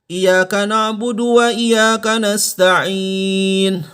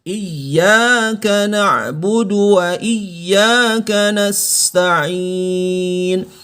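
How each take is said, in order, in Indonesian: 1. Bunyi y dibaca tunggal. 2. Bunyi y dibaca ganda. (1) "Tidak boleh dibaca" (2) "Gandakan bunyinya"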